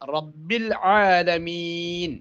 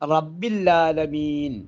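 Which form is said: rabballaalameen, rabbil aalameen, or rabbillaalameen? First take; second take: rabbil aalameen; rabbillaalameen. First: An i vowel, then a clear ain sound. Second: The ain sound is replaced by a doubled l. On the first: It means Lord of all the worlds. The speaker calls it right. "ഈ ഐനിനെ നല്ലതുപോലെ സ്ഫുടമായി ഉച്ചരിക്കൽ നിർബന്ധമാണ്" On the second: The phrase comes to contain a word meaning 'there is none'. The speaker calls it wrong. "ഐനിന്റെ ഉച്ചാരണം ലാമിലേക്ക് വരുമ്പോൾ റബ്ബില്ല എന്നാണ്"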